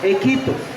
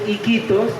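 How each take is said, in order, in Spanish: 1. La primera vocal es el sonido e. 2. La primera vocal es el sonido i. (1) "decíamos Equitos" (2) "en vez de decir Iquitos"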